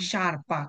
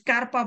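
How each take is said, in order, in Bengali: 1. শব্দটি sh ধ্বনি দিয়ে শুরু হয়। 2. শব্দটি sk ধ্বনি দিয়ে শুরু হয়। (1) "শারপা, কারণ এস জি এর পরের শব্দটা হচ্ছে ই" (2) "না এটা স্কারপা না"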